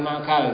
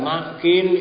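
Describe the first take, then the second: First: The second vowel is an 'a' sound. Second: The second vowel is an 'i' sound. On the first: The speaker calls it wrong. "bukan makal" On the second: The speaker calls it right. "Ma'kil Ibnu Yasar"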